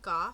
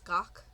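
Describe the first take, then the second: First: The syllable ends with a 'th' sound. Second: The syllable ends with a 'k' sound. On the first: The speaker calls it wrong. "It's not Goth" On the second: The speaker calls it right. "it's Gok"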